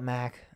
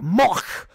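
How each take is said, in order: First: The vowel is flat, as in 'back'. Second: The vowel is an exaggerated open 'o'. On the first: "I call it Mac" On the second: "overemphasize like Mach"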